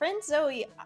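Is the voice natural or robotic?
natural. It is said in a natural human voice. The speaker calls it wrong.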